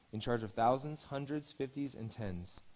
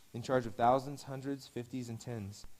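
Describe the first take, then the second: No difference in how they are said.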